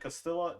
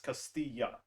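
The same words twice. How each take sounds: First: The double L sounds like an English L. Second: The double L sounds like an English Y. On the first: The speaker calls it wrong. "is it Castilla?" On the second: The speaker calls it right. "The two L's are pronounced as a Y"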